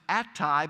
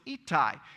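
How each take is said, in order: First: The name is said the usual English way. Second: The name is said the Israeli way. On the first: This is how it is said here. "We pronounce it Attai" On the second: This is how it is said in Israel. "over in Israel it's Ittai"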